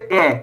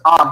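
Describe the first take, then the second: First: The letter is said with an English vowel. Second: The letter is said with a Spanish vowel. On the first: "in English we say A" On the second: "it is A in Spanish"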